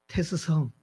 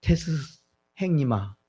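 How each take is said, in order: First: Put-on softer Chungcheong-style call to an older brother; Chungcheong dialect. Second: Put-on Gyeongsang-style call to an older brother; Gyeongsang dialect. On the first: Preacher showing how Chungcheong people address Socrates, in Chungcheong dialect. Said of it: "충청도 말로는". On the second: Preacher showing how Gyeongsang people address Socrates, in Gyeongsang dialect. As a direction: demonstrate the Gyeongsang dialect, falling at the end. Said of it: "경상도 말로 하면". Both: Shown as a demonstration.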